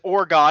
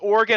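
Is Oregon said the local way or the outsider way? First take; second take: outsider; local. First: Oregon is said the way outsiders say it. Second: Oregon is said the way locals say it. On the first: The speaker calls it wrong. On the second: The speaker calls it right.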